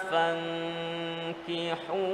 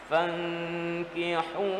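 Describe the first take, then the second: Both takes have the same delivery.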